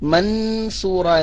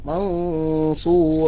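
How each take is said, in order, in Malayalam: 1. n ശബ്ദം വ്യക്തമായി ഉച്ചരിക്കുന്നു. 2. n ശബ്ദം മറഞ്ഞതും ഗുന്നയോടെയുള്ളതുമാണ്. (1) "മൻസൂറ എന്ന് ഓതാൻ പാടില്ല" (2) "അവ്യക്തമാക്കി മണിച്ച് ഉച്ചരിക്കണം"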